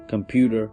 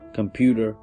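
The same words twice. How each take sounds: First: The middle consonant sounds like a D. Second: The same.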